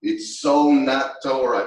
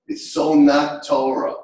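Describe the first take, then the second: First: Slow, loud "It's so not Torah." with "so" punched hard; emphatic. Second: Slow, loud "It's so not Torah." with "not" punched hard; emphatic. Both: Shown as a demonstration. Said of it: "repeated for emphasis".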